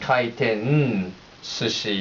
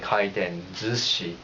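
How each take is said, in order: First: The second word starts with an s sound. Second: The second word starts with a z sound. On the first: "kaiten sushi is kind of hard to say" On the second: "they say kaiten zushi, Z U C H I, in terms of pronunciation"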